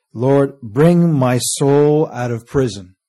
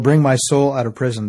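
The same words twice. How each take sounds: First: Savoured slow prayer; slow drawn-out plea. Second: Said in the usual way. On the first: Acted. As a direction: stretch every word of the prayer slowly. Verse repeated for emphasis.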